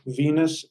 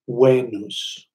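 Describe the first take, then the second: First: The word starts with a V sound. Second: The word starts with a W sound. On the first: "Venus is spelled with a V" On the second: "that V was pronounced like a W"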